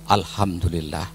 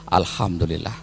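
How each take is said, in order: No difference in how they are said.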